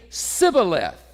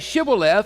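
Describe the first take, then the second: First: The word begins with a plain s sound. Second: The word begins with an sh sound. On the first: This marks the speaker as an outsider. The speaker calls it wrong. "it would be Sibboleth" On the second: This is how the local people said it. The speaker calls it right. "They couldn't say Shibboleth"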